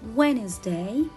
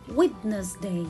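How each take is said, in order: First: The d sound is left out. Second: The d sound is clearly pronounced. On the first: The speaker calls it right. "I will read it Wednesday" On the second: The speaker calls it wrong. "I cannot read it Wednesday"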